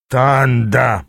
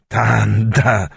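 First: Mildly despairing, drawn-out groan. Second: Lightly voiced old man calling back; old man's exclamation. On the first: Аас slumped on a chair, groaning to Танда. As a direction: groan the name wearily. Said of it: "простонал он". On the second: Old Аякс calling back to Танда, mild exclamation. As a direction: answer the greeting with a drawn-out name. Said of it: "вскрикнул в ответ старик". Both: A narrator's reading.

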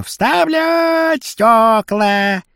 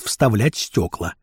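First: High, long-drawn hawker's yell; unpleasant street cry. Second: Said in the usual way. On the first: Acted. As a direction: stretch it out like a street hawker calling. (протяжный неприятный крик) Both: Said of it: "орёт неприятно".

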